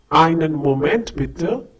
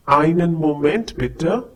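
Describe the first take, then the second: No difference in how they are said.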